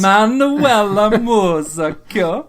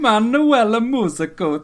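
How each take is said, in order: First: Manuela Musacchio said slowly, higher and louder, with a laugh; proud, slow attempt at Manuela Musacchio; careful name pronunciation. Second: Manuela Musacchio said higher and a bit slow, ending moo-zah-koh; careful high read of Manuela Musacchio; Google-style pronunciation. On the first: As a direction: sound out Manuela Musacchio like Google does, moo-zah-kyo. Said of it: "I'm gonna do it right". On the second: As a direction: mimic the translate voice on Manuela Musacchio. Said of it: "how I'm gonna pronounce it from now on". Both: Shown as a demonstration.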